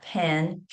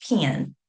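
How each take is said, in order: First: "pen" with a plain short e; standard pronunciation. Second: "pen" said like "pin", gliding "pee-un"; dialect pronunciation. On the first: Linguist contrasting two ways to say pen, standard pronunciation. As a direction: say "pen" with an open e as in "bed". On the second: Linguist contrasting two ways to say pen, dialect pronunciation. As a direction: raise the vowel of "pen" toward "pin". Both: Shown as a demonstration. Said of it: "like pen, pen".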